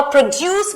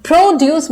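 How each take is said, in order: First: produce with the stress on DUCE, the verb; pro-DUCE, leaning on the end of "produce"; second-syllable stress. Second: produce with the stress on PRO, the noun; PRO-duce, punching the start of "produce"; first-syllable stress. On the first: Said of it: "second syllable पे stress आया". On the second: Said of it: "first syllable पे stress आएगा". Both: Shown as a demonstration.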